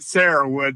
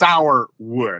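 First: The first part sounds like the name Sarah. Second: The first part sounds like the word sour. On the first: This is how local people say the name. "But they all pronounced it Sarahwood" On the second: This is how the name is written. "if you're looking at it on paper, it's Sourwood"

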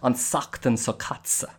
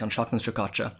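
First: The consonant is a long hissing 's' sound. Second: The consonant is a normal 'sh' sound. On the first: "in the Connemara accent, that can kind of sound like" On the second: "So if you might say something like"

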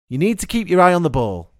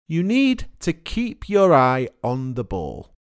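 First: It is said at normal speed, with words linked. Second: It is said slowly, with each word separate. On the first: "but listen at normal speed" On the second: "It's easy to repeat when I say it slowly"

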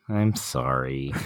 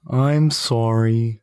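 First: It is said plainly, without much force. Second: It is said forcefully, with a full chest voice. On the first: The speaker calls it wrong. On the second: The speaker calls it right.

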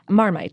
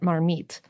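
First: It is said in an English accent. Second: It is said in a French accent.

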